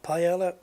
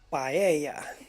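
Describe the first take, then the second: First: The double L is said as an L sound. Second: The double L is said as a Y sound. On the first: The speaker calls it wrong. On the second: The speaker calls it right.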